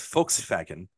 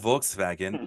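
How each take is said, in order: First: The first letter is said as an F sound. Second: The first letter is said as a V sound. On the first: The speaker calls it right. "The V's are pronounced like F's" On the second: The speaker calls it wrong. "it's not"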